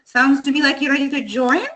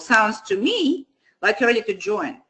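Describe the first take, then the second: First: The voice rises at the end, like a question. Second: The voice falls at the end, with authority.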